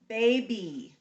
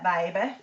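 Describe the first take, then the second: First: It is said in a general American accent. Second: It is said in a Southern American accent. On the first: "We usually say this with like a long E sound" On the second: "If I lived in um, the South, I might say"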